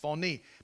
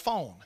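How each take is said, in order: First: The word is said as two syllables. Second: The word is said as one syllable. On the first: The speaker calls it right. "It's pronounced phoné, like phony" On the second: The speaker calls it wrong. "If you saw this Greek word spelled in English letters, it spells phone"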